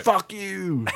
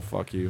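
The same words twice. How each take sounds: First: High-pitched playful jab, not in earnest; mock outrage, lightly squealed; playful swearing. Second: Said in the usual way. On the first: Fan retelling an angry tweet, playfully. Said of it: "it was a playful fuck you". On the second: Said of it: "it was a playful".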